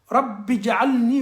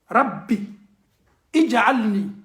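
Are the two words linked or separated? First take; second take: linked; separated. First: The words are linked, with the i dropped. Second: The words are separated, with the i sounded. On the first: "Mais le i là on coupe ça" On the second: "En arabe souvent il y a la liaison"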